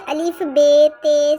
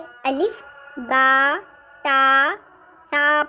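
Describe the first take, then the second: First: The letter names are said in Urdu style. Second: The letter names are said in Arabic style. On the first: The speaker calls it wrong. "हम इसे अलिफ बे ते से नहीं पढ़ेंगे" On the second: The speaker calls it right. "बल्कि हम इसे अलिफ बा ता ता पढ़ेंगे"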